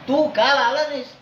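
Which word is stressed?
आला. The stress falls on the verb 'आला'. You promised to come but did not. "तू काल म्हणला होतास येतो म्हणून तर आला नाहीस"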